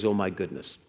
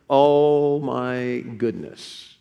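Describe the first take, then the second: First: Said in the usual way. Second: Very slow, each word stretched; drawn-out exclamation. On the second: Real, not acted. Preacher reacting to the mission of loving one another, drawn-out exclamation. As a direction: draw out "Oh my" at length.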